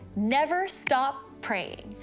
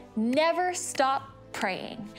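No difference in how they are said.

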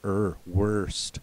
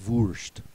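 First: The vowel is an American r-colored 'er' sound. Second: The vowel is a German 'u' sound. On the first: "As opposed to us in America, we make the UR, the IR, the ER, and the OR. We make them all sound the same" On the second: "the Germans are going to emphasize that U"

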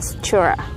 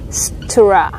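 First: The t and r blend quickly into one sound. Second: The t and r sounds are said carefully apart. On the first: "nếu như mà đọc nhanh á ... Thì các bạn có thể đọc là stura" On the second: "thay vì các bạn đọc là tr, stura"

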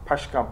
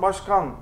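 First: The word begins with a voiceless P sound. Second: The word begins with a voiced B sound.

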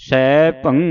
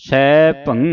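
The two takes are said the same way.

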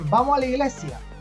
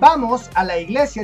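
First: The words are contracted and run together. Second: The words are said in full, clearly separated. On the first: "en realidad los chilenos contraen las palabras" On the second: "en lugar de decir"

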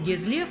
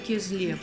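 First: The name begins with a voiced G sound. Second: The name begins with a voiceless K sound. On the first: This is how Turks would name the city. "турки бы назвали его Гезлев" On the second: This is how Crimean Tatars of the steppe dialect name the city. "а мы его называем Кезлев"

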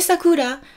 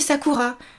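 First: The r is a light, L-like tap. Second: The r is a French throaty r. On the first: "t'as le son L qui se répète" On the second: "je l'ai prononcé un peu à la française"

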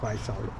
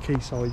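First: The first word sounds like 'kway'. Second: The first word sounds like 'key'. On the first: The speaker calls it wrong. "You don't say quay soldier" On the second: The speaker calls it right. "You say key"

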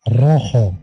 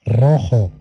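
The two takes are said the same way.

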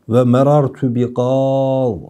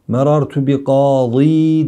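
First: The last word ends without a vowel. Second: The last word ends with a long ee. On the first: The speaker calls it right. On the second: The speaker calls it wrong.

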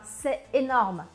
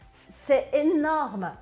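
First: It is said plainly, without extra intensity. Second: It is said with extra intensity on énorme.

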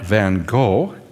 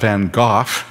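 First: The name is said with an American pronunciation. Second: The name is said with a British pronunciation. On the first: "that's English, not American English" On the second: "that's British English"

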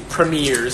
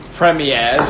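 First: It is said with an American pronunciation. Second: It is said with a British pronunciation.

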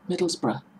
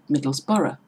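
First: The ending is a short 'bruh' with no vowel before R. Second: The ending is 'borough' with a vowel before R. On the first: The speaker calls it right. "That's how we pronounce it" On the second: The speaker calls it wrong. "tend to pronounce it"

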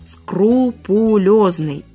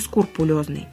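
First: The word begins with the sounds 'skru'. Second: The word begins with the sounds 'skur'. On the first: The speaker calls it right. "Правильно? «Скрупулезный»" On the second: The speaker calls it wrong. "а не «скрупулезный»"

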